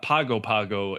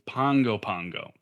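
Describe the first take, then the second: First: Each g follows the vowel without an n sound. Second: An n sound comes before each g. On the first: The speaker calls it wrong. "so it's not Pago Pago" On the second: The speaker calls it right. "it's Pongo Pongo"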